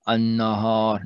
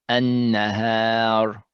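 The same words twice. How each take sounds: First: The nun and ha sound heavy and emphatic. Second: The nun and ha sound light and thin. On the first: The speaker calls it wrong. "I'm making it a little bit more emphatic" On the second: The speaker calls it right. "No, it should be anna, annahar"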